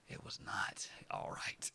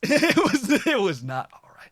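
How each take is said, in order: First: Breathy unvoiced aside; whisper. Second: Louder, higher laughing outburst; loud laughing burst. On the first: Imagining telling the viewer later, whispered. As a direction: whisper it like a secret. Mock future self, whispered. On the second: Pretend. Correcting the whisper to the viewers, loud.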